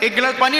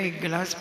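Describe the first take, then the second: First: It is said loudly, as a shout. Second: It is said softly and gently. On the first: The request is harsh and commanding. The speaker calls it wrong. "चिल्ला करके बोले" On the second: The request is affectionate and respectful. The speaker calls it right. "बहुत धीरे से बोले"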